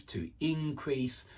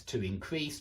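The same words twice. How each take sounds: First: Slower "increase", stress on IN; IN-crease, even as the verb "increase"; alternative verb stress. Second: "increase" with stress on CREASE; in-CREASE, the verb "increase"; standard verb stress. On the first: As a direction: hit the first syllable of "increase". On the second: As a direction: hit the second syllable of "increase". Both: Shown as a demonstration. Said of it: "I can imagine both pronunciations".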